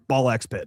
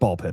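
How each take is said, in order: First: The middle X is pronounced aloud. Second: The middle X is left silent. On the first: The speaker calls it wrong. "rolls off your whole lot better than Ball X Pit" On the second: The speaker calls it right. "so it's Ball Pit"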